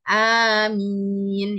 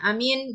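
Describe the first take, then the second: First: Both vowels are lengthened, two beats each. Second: Both vowels are said short. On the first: It means please answer our prayer. The speaker calls it right. "A-nya panjang, mimnya juga panjang" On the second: It means safe and peaceful. The speaker calls it wrong. "sama-sama pendek, tidak ada panjangnya sama sekali"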